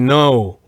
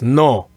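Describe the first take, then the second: First: The vowel glides at the end of the word. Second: The vowel is short, pure and clipped. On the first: The speaker calls it wrong. "In English, you would basically say no. You have that kind of O s- sound at the end" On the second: The speaker calls it right. "in Spanish, it's it's more dry and short. It's just no"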